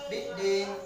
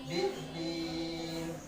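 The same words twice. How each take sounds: First: The final vowel is cut very short. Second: The final vowel is held for two beats. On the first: The speaker calls it wrong. "jangan mengatakan biddin. Nah, itu pendek sekali" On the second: The speaker calls it right. "dua harakat"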